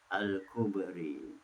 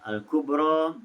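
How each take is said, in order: First: The final vowel is tilted toward 'e'. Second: The final vowel is an open 'a'. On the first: This is the reading of another transmission. "dibaca dengan imalah" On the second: This is the reading of one transmission. "itu bacaan riwayat Hafs"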